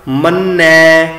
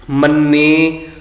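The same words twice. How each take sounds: First: ਮੰਨੈ slow, with an open ai ending; dulavan sound. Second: ਮੰਨੇ with a plain short e ending; the common mistaken ਮੰਨੇ; wrong reading. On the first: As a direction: sing ਮੰਨੈ, opening the final ai. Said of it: "ਦੁਲਾਵਾਂ ਦਾ ਉਚਾਰਨ". (ਦੁਲਾਵਾਂ ਵਾਲਾ ਮੰਨੈ ਲਮਕਾ ਕੇ) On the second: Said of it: "ਅਸੀਂ ਇੱਦਾਂ ਪੜ੍ਹਦੇ ਹਾਂ". (ਗਲਤ ਉਚਾਰਨ ਮੰਨੇ) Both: Shown as a demonstration.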